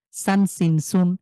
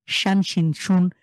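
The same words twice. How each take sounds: First: সান with a plain s, chanted slowly; সান সিন সুন with a clear s sound; sin drill. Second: শান with sh, chanted slowly; শান contrasted, with a sh sound; shin drill. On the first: (স দিয়ে ধীরে উচ্চারণ) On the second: (শ দিয়ে ধীরে উচ্চারণ) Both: Shown as a demonstration. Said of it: "টান ছাড়া দ্রুত পড়তে হয়".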